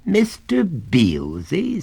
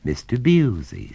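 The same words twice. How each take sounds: First: Slow, high rising disbelief on Beelzy; inquiring. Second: Said in the usual way. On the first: Acted. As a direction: stretch Mister Beelzy out, eyebrows raised. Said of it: "raising his eyebrows inquiringly".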